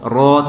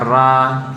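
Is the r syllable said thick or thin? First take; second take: thick; thin. First: The syllable is said thick, with a darker vowel. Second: The syllable is said thin, with a brighter vowel. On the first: The speaker calls it right. "ro tebal" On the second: The speaker calls it wrong. "jangan sampai ra"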